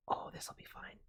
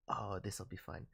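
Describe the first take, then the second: First: Soft unvoiced whisper. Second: Said in the usual way. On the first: Real, not acted. Streamer whispers about a fun suggestion. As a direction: whisper it with glee.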